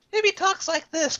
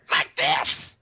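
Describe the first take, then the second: First: High, slow, lightly cute cat voice. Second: The unwanted voice. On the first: Showing how the cat could talk, high and slow. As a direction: purr it out a bit like a kitty. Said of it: "like a cat". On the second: Showing the cat voice they do not want, less cute. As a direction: sound like the annoying version they dread. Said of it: "but not like". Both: Retold or imitated.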